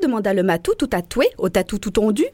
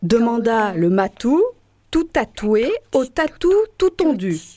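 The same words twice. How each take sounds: First: It is said fast. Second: It is said slowly.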